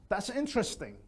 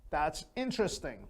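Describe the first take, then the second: No difference in how they are said.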